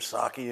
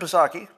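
First: The name begins with an S, P silent. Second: The name begins with an audible P sound. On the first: "or Psaki if you like" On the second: "If I want to pronounce the P in front of Psaki, well, damn it, I'm going to do it"

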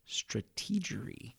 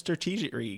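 First: The word is said slowly and deliberately. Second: The word is said at normal speed.

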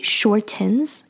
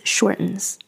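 First: The T sound is clearly pronounced. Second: The T sound is dropped. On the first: The speaker calls it wrong. "Notice that I don't say shortens" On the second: The speaker calls it right. "在口语里通常这个 T 在美式英语里是不会发出来的"

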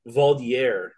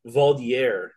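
First: The term has a French-style pronunciation. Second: The same.

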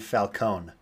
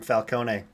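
First: The final vowel is silent. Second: The final vowel is pronounced. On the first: "They don't pronounce the E at the end" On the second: "Not in the Dark Knight trilogy"

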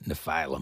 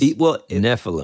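First: The word ends sounding like 'phylum'. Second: The word does not end sounding like 'phylum'. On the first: The speaker calls it wrong. "I kept on saying Nephilim. ... It does sound like phylum" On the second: The speaker calls it right. "my apologies"

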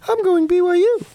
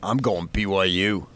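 First: It is said at a higher pitch. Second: It is said at a normal, lower pitch.

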